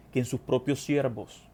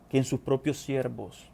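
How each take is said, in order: Both takes have the same delivery.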